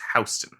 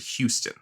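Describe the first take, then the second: First: It is said like the New York name. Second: It is said the way the guest says it. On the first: "That's the one in New York" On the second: "you pronounced it Houston"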